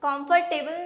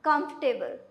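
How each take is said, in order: First: The stress is on the 'table' ending. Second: The stress is on the beginning, not the ending. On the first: The speaker calls it wrong. "Comfortable नहीं, table पे stress नहीं देना" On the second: The speaker calls it right. "इसको हम pronounce करेंगे comfortable"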